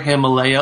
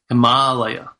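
First: The middle vowel sounds like 'ay'. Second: The middle vowel is a long 'ah'. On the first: The speaker calls it wrong. "we hear Himalaya all the time" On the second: The speaker calls it right. "it's really Himalaya"

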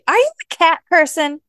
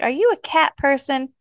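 First: It is said with more intensity and force. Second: It is said calmly, without extra force.

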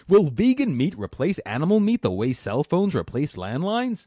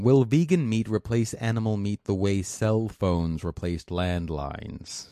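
First: It is read in a put-on smug voice. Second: It is read in his normal voice.

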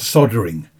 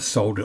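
First: The word is pronounced in an American way. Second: The word is pronounced in a British way.

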